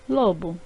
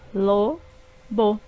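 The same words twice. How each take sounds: First: Said in the usual way. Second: Lo-bo said as two separate beats; syllables split apart. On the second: Shown as a demonstration. Teacher dividing lo-bo for pupils, syllable by syllable. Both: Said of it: "formadas por duas sílabas".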